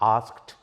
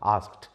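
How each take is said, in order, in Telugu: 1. పదం చివర చిన్న t శబ్దంతో ముగుస్తుంది. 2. పదం చివర చిన్న t శబ్దంతో ముగుస్తుంది.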